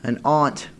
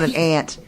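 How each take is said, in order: First: The word sounds different from the insect ant. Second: The word sounds like the insect ant. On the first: The speaker calls it right. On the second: The speaker calls it wrong.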